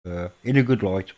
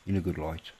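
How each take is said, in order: First: Said in the usual way. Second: Quiet repeat. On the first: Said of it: "first take". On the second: Real, not acted. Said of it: "repeated softly".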